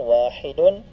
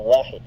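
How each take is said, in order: First: The word ends with an added vowel and n. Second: The word ends on a bare d sound. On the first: "lagyan ng dhamatan" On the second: "pwede rin natin sabing wahid"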